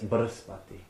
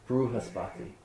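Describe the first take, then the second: First: It is said with the standard Sanskrit vowel. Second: It is said the South Indian way, with 'ru'.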